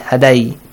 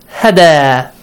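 First: The word ends with an added i sound. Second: The word ends on a plain long a. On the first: The speaker calls it wrong. "that's wrong" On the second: The speaker calls it right. "You should read it"

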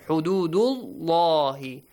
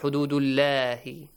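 First: The L in 'llah' is heavy and deep. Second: The L in 'llah' is light and thin. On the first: The speaker calls it right. "With a heavy sound, with an aw sound" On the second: The speaker calls it wrong.

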